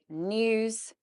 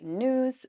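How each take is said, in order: First: A 'y' sound follows the 'n'. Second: There is no 'y' sound after the 'n'. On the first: "we would say news, nya" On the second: "you guys would say news"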